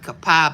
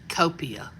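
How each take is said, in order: First: The name ends in an 'eye' sound. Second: The name ends in an 'ee-uh' sound. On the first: The local name of Indian origin. The speaker calls it right. "instead of Copai, but it's really Indian" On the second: Said by people unfamiliar with the area. The speaker calls it wrong. "people want to call it Copia that aren't familiar with our area"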